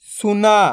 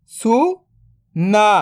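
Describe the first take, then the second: First: Said in the usual way. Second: "सुना" split into सु, then ना, very slow; drawn-out breakdown of "सुना"; syllable by syllable. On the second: Shown as a demonstration. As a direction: sound out सु ... ना with a long gap. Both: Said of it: "तो मिलके बन जाएगा".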